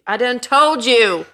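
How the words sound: It is said in a cowboy accent.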